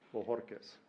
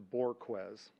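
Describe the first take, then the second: First: The J sounds like H; the R is rolled. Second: It is said the English way, R not rolled. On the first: This is the family's Spanish way of saying it. "The J is an H, you roll the R" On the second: This is the changed form used after moving to Texas. "he magically changed it to"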